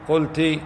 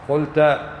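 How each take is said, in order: First: The word ends in a short i vowel. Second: The word ends in a short a vowel. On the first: A female listener said it. "المخاطبة يقال لها" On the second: A male listener said it. "والمخاطب تقول له قلت"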